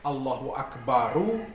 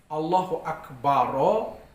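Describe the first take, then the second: First: Akbar ends with an added u vowel. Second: Akbar ends with an added a vowel.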